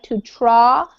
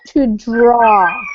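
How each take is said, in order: First: Draw begins with a T-like sound. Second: Draw begins with a clear D sound. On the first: The speaker calls it wrong. "what I hear is a T sound, like to draw" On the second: The speaker calls it right. "we want to get the D"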